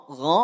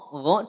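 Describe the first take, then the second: The two takes are said the same way.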